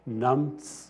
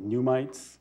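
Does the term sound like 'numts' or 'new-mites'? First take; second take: numts; new-mites. First: It is said like 'numts', without 'mites'. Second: It is said like 'new-mites', ending in 'mites'.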